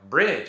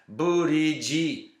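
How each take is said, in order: First: It is one syllable with no added vowels. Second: Extra vowels split it into three syllables. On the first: It is the target native pronunciation. The speaker calls it right. "they can't say like, uh, you know, bridge" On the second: It is bent to fit a syllable-based writing system. The speaker calls it wrong. "It's buriji. You just got to have syllables"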